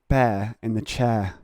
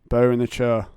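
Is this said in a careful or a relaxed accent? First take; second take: careful; relaxed. First: It is said in a careful put-on accent. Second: It is said in a relaxed everyday accent. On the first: This is a forced way of speaking used when reading aloud. "it sounds so unnatural coming out of m- my face hole" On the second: This is how the speaker normally talks. "I say it like the bear in the chair"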